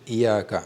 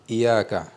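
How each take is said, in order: The two takes are said the same way.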